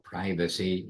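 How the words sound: The word is said in an American way.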